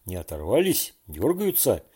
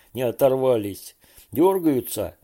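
First: Anxious asking about the fish; fearful question. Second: Louder, sarcastic repeat of the question; angry mocking echo. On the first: Borya asking if fish still hooked, frightened. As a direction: worry only about the fish. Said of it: "испуганно спрашивал Боря". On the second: Fedya angrily mimicking Borya's question, loud mock. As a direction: throw his words back at him. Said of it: "Федя рассердился". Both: A narrator's reading.

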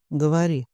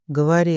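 First: Said in the usual way. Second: A louder barked command; shouted order. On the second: Acted. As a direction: yell the order, losing patience. (громкий окрик) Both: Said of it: "заорал Игнат".

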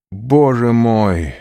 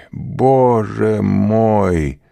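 First: Loud anguished cry to God, drawn out; loud desperate plea; despairing cry. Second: Stretched, very slow anguished repeat, still loud; long drawn-out lament; despairing cry. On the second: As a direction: let the cry linger and break. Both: A narrator's reading. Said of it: "вскричал он".

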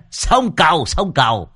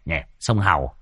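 First: Sông Cầu said firmly with a laugh; corrected name. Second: Sông Hầu said low and unsure; wrong river name. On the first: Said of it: "À, à không". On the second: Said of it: "À, à không, sông Cầu". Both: A narrator's reading.

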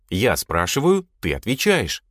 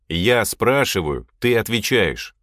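First: Obedient repetition. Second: Slow, measured rule-setting; firm command. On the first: A narrator's reading. Lad repeats the boss's rule, obedient recitation. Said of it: "повторил Клещ". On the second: Acted. Boss stops the questions, firm command. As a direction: lay down the rule firmly.

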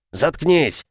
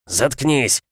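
First: Higher, louder repeat of the yell; louder shout. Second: Shout. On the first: Father yelling at son again, higher and louder. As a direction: scream it harder the second time. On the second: Father yelling at son, first take. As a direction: bark it at your son. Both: A narrator's reading. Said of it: "орёт краснея".

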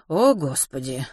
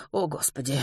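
First: Slow, weary-sounding exclamation; repeated lament. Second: Soft, near-whispered sigh of words; hushed dismay. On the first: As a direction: draw out the words in dismay. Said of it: "повторила миссис Померой". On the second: Mrs Pomeroy hears the baby crying, hushed dismay. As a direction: murmur it under your breath. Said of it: "прошептала миссис Померой". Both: Acted.

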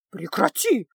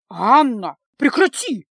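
First: Brief reproving interruption; cutting her off. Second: Outraged cry. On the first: Mother cutting off her daughter, mildly sharp. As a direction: stop her short, voice only mildly raised. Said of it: "оборвала Анну мать". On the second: Mother crying out at her daughter, loud and scandalized. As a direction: cry out to stop her, voice jumping up. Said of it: "Новый вскрик от матери". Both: A narrator's reading.

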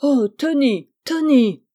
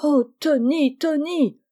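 First: Loud, high cry of dismay; collective outcry. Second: High, lightly acted lament; tearful cry. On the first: Family seeing the dishevelled boy, shocked outcry. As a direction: exclaim aghast, raised and loud. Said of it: "un cri s'élève". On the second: Mother despairing of her son, tearful exclamation. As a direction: wail the name in mild distress. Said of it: "s'écria-t-elle en pleurant". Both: A narrator's reading.

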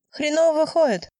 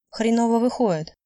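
First: Put-on higher-pitched, louder jab from a pushy young skater; pushy girl, voice pitched up; brash girl's comment. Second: A mild throwing-back of the remark; understated tit-for-tat echo; echoing her words. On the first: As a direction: toss out a cheeky criticism in a high voice. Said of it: "прокомментировала темнокожая девушка". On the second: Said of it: "повторила её слова". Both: A narrator's reading.

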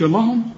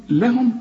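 First: لهم with thick, dark vowels; mock mistake: heavy, backed vowels in لهم; wrongly heavy. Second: لهم with thin, light vowels; light sounds. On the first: Teacher shows what not to say, wrongly heavy. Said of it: "ما تقولش". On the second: Teacher models the word for students, light sounds. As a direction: say لهم lightly, no heavy colouring. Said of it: "رقق". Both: Shown as a demonstration.

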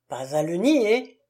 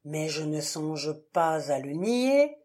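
First: Louder, jolted exclamation; startled, louder echo; startled outburst. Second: Said in the usual way. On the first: A narrator's reading. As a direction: jump at the words in shock. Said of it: "sursauta Prenant".

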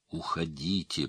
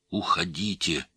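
First: Softer, strained narrated plea; hoarse pleading. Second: Understated urgent order; restrained cry. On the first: Wounded father begs the others to leave, softly hoarse plea. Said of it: "прохрипел он умоляюще". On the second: Wounded father orders the others to leave, restrained cry. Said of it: "кричал он". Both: A narrator's reading.

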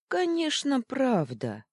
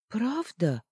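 First: "правда" said firm and sure, falling; confident reply. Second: High, timid hopeful ask; hope she means it; hopeful question. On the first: Луна с Анитой хором уверяют Фитчика, твёрдо. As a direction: reassure him decisively. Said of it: "хором ответили Луна с Анитой". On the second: Фитчик с надеждой переспрашивает друзей, высоко. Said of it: "с надеждой спросил Фитчик". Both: Acted.

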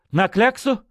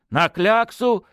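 First: Quick high question, voice cracking on кляксу; snatch at the words "На кляксу?" in alarm; Zhuravlev's voice breaking on "кляксу" as he asks back. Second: "На кляксу!" said firmly with a falling end on кляксу; "кляксу" stated, not asked, falling tune; confident confirmation. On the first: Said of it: "высоким рвущимся голосом". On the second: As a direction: nod it through, certain. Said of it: "кивнув, подтвердил князёк". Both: Acted.

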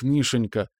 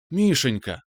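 First: Guilty, apologetic. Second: Calls his name with bright joy; a happy cry of her son's name; excited exclaim. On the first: Mom breaking bad news to her son, apologetic. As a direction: say his name as if sorry. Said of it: "она виновато глянула на меня". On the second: Mom bursting in to her son, excited exclaim. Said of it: "воскликнула она". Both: A narrator's reading.

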